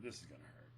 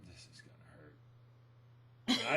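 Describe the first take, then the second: First: Low, soft muttered dread; quiet aside. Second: Very slow, stretched out and lower; slow drawn-out dread. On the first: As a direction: say it under your breath, bracing. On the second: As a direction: drag each word out as he looms closer. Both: Retold or imitated. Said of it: "I went".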